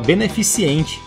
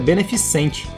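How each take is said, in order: First: An extra 'i' sound comes before '-cente'. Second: No 'i' sound comes before '-cente'. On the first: The speaker calls it wrong. "Jameson fala beneficente" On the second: The speaker calls it right. "o correto é beneficente, sem o i"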